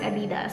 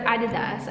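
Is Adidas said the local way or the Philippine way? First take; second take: Philippine; local. First: It is said in the Philippine pronunciation. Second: It is said in the local pronunciation. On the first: This is how it is said in the Philippines. "in Philippines I pronounce it Adidas" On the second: This is how people where she lives say it. "They pronounce it here Adidas"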